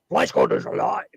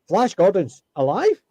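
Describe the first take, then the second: First: It is said loudly and wildly over-exaggerated. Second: It is said plainly, without exaggeration. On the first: This is how people remember the line. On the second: This is how the line actually sounded.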